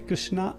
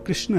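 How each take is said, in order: First: The name ends with a long final 'a' vowel. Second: The name ends without a long final vowel. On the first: The speaker calls it wrong. "कृष्णा नहीं है" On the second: The speaker calls it right. "जो सही शब्द है वो कृष्ण है"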